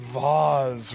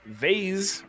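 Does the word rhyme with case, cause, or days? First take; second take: cause; days. First: The vowel is 'ah' with a buzzing z. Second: The vowel is 'ay' with a buzzing z. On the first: "rhymes with cause" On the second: "rhymes with days"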